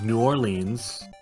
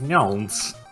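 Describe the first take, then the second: First: The name is said with some syllables squeezed. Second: The name is condensed as far as possible. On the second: "I've simply condensed condensed it as far as it can go"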